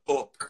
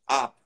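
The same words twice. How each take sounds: First: It has a Yorkshire vowel. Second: It has a standard English vowel. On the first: "you go to up" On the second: "instead of giving it a standard English up"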